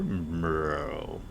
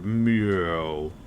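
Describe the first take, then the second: First: A very low, deep meow. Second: A somewhat lower-pitched meow.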